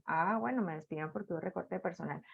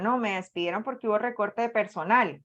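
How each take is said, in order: First: Very soft, low, quick murmur; quiet acceptance. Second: Said in the usual way. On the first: Acted. Worker accepting a layoff to herself, in a low murmur. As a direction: drop right down, as if conceding it to yourself. Acted acceptance of the same reason.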